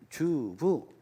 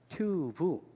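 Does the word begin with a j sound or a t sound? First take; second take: j sound; t sound. First: The word begins with a j sound. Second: The word begins with a t sound. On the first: This is the local rural pronunciation. The speaker calls it wrong. "옛날에 주부라고 많이 그랬습니다" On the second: This is the standard city pronunciation. The speaker calls it right. "주부를 튜브 이렇게 발음하셨구나"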